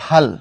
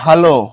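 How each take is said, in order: First: The word ends sharply on the final consonant. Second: The word ends with a drawn-out final vowel. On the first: It means forehead. "লর পরে তুমি যদি অধ্বনি না টানো, ভাল করো অর্থাৎ হসন্ত দিয়ে" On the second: It means good. "শেষে যদি তুমি অটা টেনে আনো"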